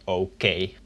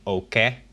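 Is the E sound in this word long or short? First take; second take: long; short. First: The E vowel is long. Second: The E vowel is short. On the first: "This makes the sound of the E long" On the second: "instead of saying okay"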